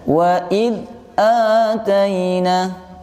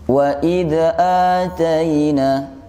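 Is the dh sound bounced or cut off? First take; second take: cut off; bounced. First: The dh sound is cut off abruptly. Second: The dh sound bounces with an added vowel. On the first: "suaranya jangan sampai putus" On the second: "jangan sampai dipantul"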